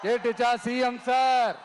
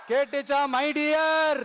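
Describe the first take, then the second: First: Pointed call to the chief minister, last word held; formal taunt. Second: Teasing call to a rival, last word held; affectionate taunt. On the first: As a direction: switch to mock-respectful address. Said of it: "ஆசையா பாசமா கூப்பிட்டா பிடிக்க மாட்டேங்குது". (மரியாதையாக சீண்டும் அழைப்பு) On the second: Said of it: "ஆசையா பாசமா கூப்பிட்டா". (ஆசையாக, பாசமாக சீண்டும் அழைப்பு) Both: Real, not acted.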